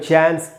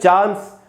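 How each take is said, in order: First: It is said in an American accent. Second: It is said in a British accent. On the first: "American में" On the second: "British में"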